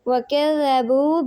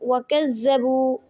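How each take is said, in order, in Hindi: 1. dh ध्वनि का उच्चारण नरमी से होता है। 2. dh ध्वनि का उच्चारण कठोरता से होता है। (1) "ज़ाल की अदायगी नरमी से की जाती है" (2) "इस तरह किसी ने नहीं पढ़ना"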